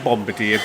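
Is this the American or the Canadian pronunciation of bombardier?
American. The word is said the American way. The speaker calls it wrong. "I always used to say bombardier"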